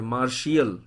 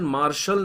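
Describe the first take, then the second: First: The word is said in three syllables, marshiyal. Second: The word is said in two syllables, marshal. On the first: The speaker calls it right. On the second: The speaker calls it wrong. "ये वाला pronunciation मार्शल नहीं है"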